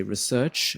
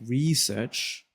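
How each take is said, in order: First: "research" with the weight on SEARCH; "research" stressed on its second syllable. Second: "research" with RE drawn out and stressed; "research" stressed as REE-search. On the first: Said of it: "put the emphasis on search". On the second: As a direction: hit the first syllable of "research". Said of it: "put stress on the re". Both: Shown as a demonstration.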